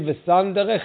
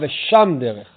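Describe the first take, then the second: First: The first word is said with an 's' sound. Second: The first word is said with an 'sh' sound. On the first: One who sets out on a path. "המילה ושם זה עם סין שמאלית" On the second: One who measures and assesses his ways. "שם זה מלשון שמאות"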